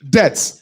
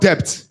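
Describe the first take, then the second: First: The silent letter is left unpronounced. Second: The silent letter is pronounced aloud. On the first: The speaker calls it right. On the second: The speaker calls it wrong. "not debt"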